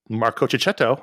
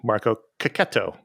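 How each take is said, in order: First: The surname is said with a ch sound. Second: The surname is said with a k sound. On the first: The speaker calls it wrong. "as we used to say" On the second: The speaker calls it right. "is actually"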